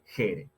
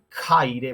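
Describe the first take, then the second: First: The first syllable has a fricative and plain 'e'. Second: The first syllable has an aspirated stop and diphthong. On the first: This is the later Koine pronunciation. "vamos a tener jere" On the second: This is the older classical pronunciation. "en vez de jaire"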